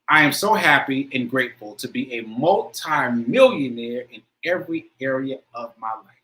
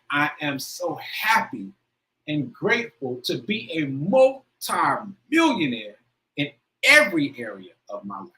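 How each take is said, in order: First: It is said in a plain, calm way. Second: It is said with strong, passionate feeling.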